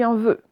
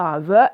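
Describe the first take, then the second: First: Vœu avec un E fermé, bouche ronde. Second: Vœu avec un E ouvert, comme dans œuf; mauvais E ouvert. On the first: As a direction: fermer le E de vœu, comme dans nœud. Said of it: "on dit un vœu". (vœu, E bien fermé) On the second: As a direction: ouvrir à tort le E de vœu. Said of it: "On dit pas un vœu". (vœu prononcé à tort avec E ouvert) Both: Shown as a demonstration.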